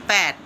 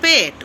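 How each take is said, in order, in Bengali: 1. স্বরধ্বনিটি খোলা, 'pat'-এর মতো। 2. স্বরধ্বনিটি মধ্যম, 'pet'-এর মতো। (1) "প্যাট কি রে ভাই?" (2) "ওটা তো পেট, উচ্চারণটা তো জানতে হবে।"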